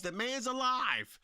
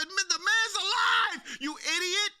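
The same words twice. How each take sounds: First: Said in the usual way. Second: Raised, exasperated mock yell at him. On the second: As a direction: yell it in disbelief, "the man's alive". Yelling at crying champion.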